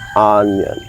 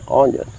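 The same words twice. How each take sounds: First: The first vowel is an open 'uh' sound. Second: The first vowel is a rounded 'oh' sound. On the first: "In real English it is said ah ah" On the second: "But you can say onion. It's all right"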